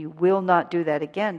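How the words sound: It is said in a stern, exact tone.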